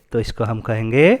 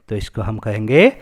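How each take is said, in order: Both takes have the same delivery.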